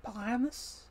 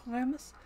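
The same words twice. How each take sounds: First: Put-on Primus with a German accent and a questioning rise; Stanley Tucci German accent. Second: Put-on Primus louder, German-accented, with a rising end; Stanley Tucci German accent. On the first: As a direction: imitate a German scientist saying Primus. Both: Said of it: "I love the way he says that".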